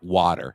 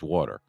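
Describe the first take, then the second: First: It is said with a general American accent. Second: It is said with a New Jersey accent.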